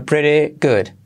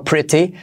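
First: "pretty" with the tt tapped like a soft Spanish r. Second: "pretty" with a clear crisp t; hard T. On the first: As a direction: say "pretty good" as "preree good". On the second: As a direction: say "pretty" with a true t, as spelt. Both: Shown as a demonstration. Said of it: "T como resuave".

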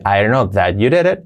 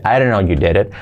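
First: "I didn't know that you did it" linked with "that"; linked, keeping that. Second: "I didn't know you did it" run together, lower; linked, that omitted. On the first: Teacher offers the optional version, linked with that. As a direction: run it together but keep "that". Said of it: "Puedes decir". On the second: Teacher omits that for learners, linked pronunciation. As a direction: join "know" straight onto "you". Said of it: "ese that lo vamos a omitir". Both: Shown as a demonstration.

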